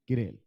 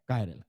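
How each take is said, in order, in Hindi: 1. पहला syllable 'ki' जैसा सुनाई देता है। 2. पहला सिलेबल 'kai' जैसा सुनाई देता है। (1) "टू बी एग्जैक्टली ये किरेल ही होता है" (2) "कई बार कायरल बोल देते हैं"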